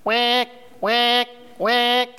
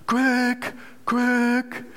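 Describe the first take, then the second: First: Twangy quacks with narrowed throat. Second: Loose, open-throated quacks. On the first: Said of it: "Und wenn's ihr zumacht". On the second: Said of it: "dann klingt eure Stimme so". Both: Shown as a demonstration.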